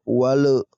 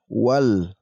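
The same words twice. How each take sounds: First: The final L is said with a bounce. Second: The final L is said cleanly and plainly. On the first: The speaker calls it wrong. "Tidak dibaca dipantulkan" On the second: The speaker calls it right. "Kita langsung baca dengan jelas"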